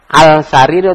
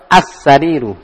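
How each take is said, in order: First: The l of the article is clearly pronounced. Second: The l merges into a doubled s sound. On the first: "Omari atau Syamsia?" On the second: "Omari atau Syamsia?"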